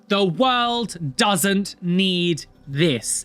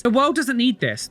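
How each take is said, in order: First: Chanted, every word drawn out and separate; chanted, lead the crowd through it very slowly; chanted, emphatic, stretched-out slogan. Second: Higher and run together; fed-up, raised-pitch outburst; exasperated repeat. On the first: Louder chant asked of everyone. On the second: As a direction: rattle it off in high-pitched exasperation. Same slogan repeated quickly, fed up. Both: Real, not acted.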